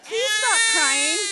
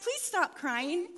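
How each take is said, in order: First: Slow, loud, high-pitched begging; desperate loud plea. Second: Slow, drawn-out mild plea; restrained pleading. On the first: Mother to crying baby, desperate loud begging. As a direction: cry it out in mock desperation. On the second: Mother to crying baby, restrained plea. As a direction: beg slowly, still holding it together. Begging the baby, before escalating. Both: Pretend.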